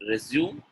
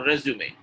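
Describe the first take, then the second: First: RESUME in two syllables, like the verb; wrong pronunciation. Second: RESUME in three syllables, ending in "may"; correct pronunciation. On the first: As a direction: say RESUME as "re-ZYOOM". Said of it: "getting the number two right". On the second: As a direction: say RESUME as "REZ-yoo-may". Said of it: "Resume is correct". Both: Shown as a demonstration.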